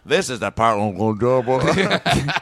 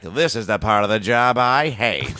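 First: Slow resigned cartoon grumble; weary dinosaur voice. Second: Slow, resigned grumble through a laugh; a touch of weary dinosaur. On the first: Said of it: "he goes". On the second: Retold or imitated. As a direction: sigh through the line. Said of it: "the dinosaur ... was like".

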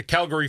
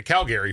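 First: "Calgary" as "CAL-gree", middle vowel swallowed; quick unstressed middle in "Calgary"; usual sports pronunciation. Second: "Calgary" as "Cal-GARY", middle vowel full; full "gair" in the middle of "Calgary"; disputed pronunciation. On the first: Retold or imitated. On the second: Shown as a demonstration. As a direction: say "Calgary" ending like the name Gary. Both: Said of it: "They're not like the Calgary Flames".

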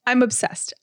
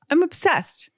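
First: Said in the usual way. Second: Put-on high gushing valley girl voice; bubbly sorority girl. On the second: Shown as a demonstration. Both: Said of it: "That would be the word obsessed".

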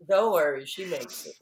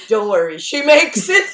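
First: Laughing retelling. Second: Teasing whisper-close reassurance, rising high; playful reassurance. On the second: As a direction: tease him kindly that she survives. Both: Retold or imitated. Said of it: "I go".

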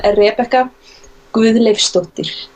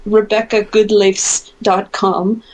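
First: Slow, careful Icelandic pronunciation; Icelandic accent. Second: Name said the American way; Americanized pronunciation, slow; American accent. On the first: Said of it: "I'm gonna say my full name with an Icelandic accent". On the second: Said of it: "if you say it with an American accent". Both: Shown as a demonstration.

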